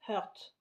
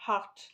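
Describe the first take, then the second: First: Heart with an "eu" vowel, like "hurt"; mispronounced Heart. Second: Heart with an open "a" vowel; corrected pronunciation. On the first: Vlogger unsure how to say Heart, tries it with an "eu" vowel. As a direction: say Heart as French "heurt". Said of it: "je sais jamais si on dit". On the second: Vlogger correcting herself on Heart, open "a" as in "hart". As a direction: say Heart as "hart", French accent. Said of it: "Non, Heart". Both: Shown as a demonstration.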